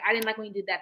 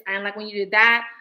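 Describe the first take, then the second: First: It is said in a calm, nice tone. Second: It is said in a harsh, confrontational tone. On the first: The speaker wants to work things out. The speaker calls it right. "Say it nicely" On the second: The speaker is confronting the other person. The speaker calls it wrong. "don't say it like how I said it"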